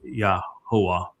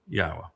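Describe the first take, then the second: First: The name is said with a middle 'hoo' sound. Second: The name is said without a middle 'hoo' sound. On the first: The speaker calls it wrong. "it's Yahuwah in this song, and that is incorrect" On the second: The speaker calls it right. "the simple truth is it's Yahweh"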